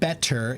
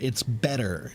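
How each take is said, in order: First: The middle sound is a hard, clear T. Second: The middle sound is a soft, quick D. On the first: "the proper pronunciation when you're speaking slowly and clearly" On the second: "the hard T becomes a soft D"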